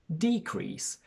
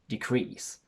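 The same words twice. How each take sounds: First: The stress is on the first syllable. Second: The stress is on the second syllable. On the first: It is used as a noun. "we register a shift in stress to the front" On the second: It is used as a verb. "Because it's a verb, the stress falls onto the second syllable, and we have a short sound for the first E"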